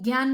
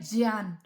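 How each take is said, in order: First: The word is said the easy, casual way. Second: The word is said the careful, pure way. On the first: The speaker calls it wrong. "ज्ञान हम मुख सुख के लिए बोलते हैं उसको" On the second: The speaker calls it right. "वो होता है ज्ञान"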